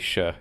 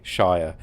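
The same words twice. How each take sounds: First: The word is said with a shortened vowel. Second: The word is said with a full vowel. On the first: It is a suffix at the end of a place name. "You kind of shorten the pronunciation" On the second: It is the standalone name for a place. "you do you do say Shire"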